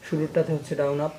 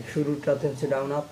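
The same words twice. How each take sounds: The two takes are said the same way.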